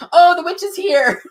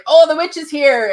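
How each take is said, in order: First: Higher, louder thrilled cry; Kat's echoing gasp of wonder; excited recognition. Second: Excited recognition. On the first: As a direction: announce it with a start of delight. Friend Kat says same words. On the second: Sensing the witch in meditation. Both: Retold or imitated.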